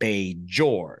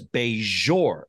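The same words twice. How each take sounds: First: The J is pronounced as a hard J. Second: The J is pronounced as a soft zh. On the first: "No zh in there" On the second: "He does a zhuzh to it"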